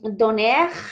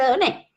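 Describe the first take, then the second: First: The final R sound is pronounced. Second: The word ends in a vowel without R. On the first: The speaker calls it wrong. "para acordarme que es la R final que va ahí" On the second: The speaker calls it right. "donner se dice donné"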